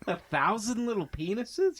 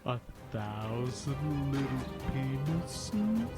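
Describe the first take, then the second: First: The phrase is said at a normal, quicker pace. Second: The phrase is said slowly and drawn out.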